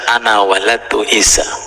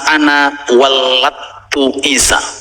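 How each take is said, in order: First: The L sound in the verb is single. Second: The L sound in the verb is doubled. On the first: I gave birth to Isa. The speaker calls it wrong. "dibaca ana waladtu Isa tanpa tasdid" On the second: I caused Isa to be born. The speaker calls it right. "pakai tasdid"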